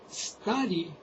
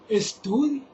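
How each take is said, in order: First: The word begins directly with the 's' sound. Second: The word begins with an added 'e' sound.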